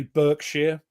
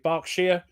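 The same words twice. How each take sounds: First: "Berkshire" said as BURK-sheer; American pronunciation. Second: "Berkshire" said as BARK-sheer; British pronunciation. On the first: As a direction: give "Berkshire" an "er" vowel, as in burk. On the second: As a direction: give "Berkshire" an "ar" vowel, as in bark. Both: Shown as a demonstration. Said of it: "or as you would say".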